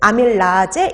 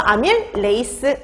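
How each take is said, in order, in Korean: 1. 이 단어는 'laje' 소리로 끝나요. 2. 이 단어는 'leiseu' 소리로 끝나요. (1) "독일식 발음" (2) "영어식으로 레이스 이런 식으로 끝나게"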